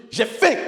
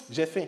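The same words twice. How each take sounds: First: J'AI FAIM shouted high; loud demand. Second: Said in the usual way. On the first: Shown as a demonstration. Teacher showing volume change on being hungry, high loud shout. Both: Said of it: "vous voyez que c'est pas pareil".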